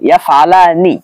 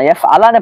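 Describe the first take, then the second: First: The word ends with an 'ee' vowel. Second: The word ends with an 'eh' vowel. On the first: The speaker calls it right. "বরং পড়বেন ইয়াফআলানি" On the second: The speaker calls it wrong. "ইয়াফআলানে পড়বেন না"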